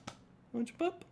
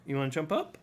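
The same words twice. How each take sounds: First: Very high, soft pet voice; coaxing pet talk. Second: Said in the usual way. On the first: Real, not acted. Host invites the pet to jump up, high coaxing. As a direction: coax a pet in a tiny high voice.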